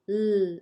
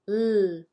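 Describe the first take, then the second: First: A clear L with the tongue forward. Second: A clear L with the tongue forward.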